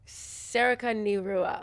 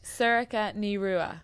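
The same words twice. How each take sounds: First: Sorcha Ní Rua sounded out very slowly; learner's Irish attempt. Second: Sorcha Ní Rua said slowly in Irish; Irish pronunciation. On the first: Co-host trying the Irish name, slow learner's attempt at Sorcha Ní Rua. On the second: Teaching the co-host her Irish name, slow Irish pronunciation of Sorcha Ní Rua. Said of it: "So try say it". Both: Shown as a demonstration.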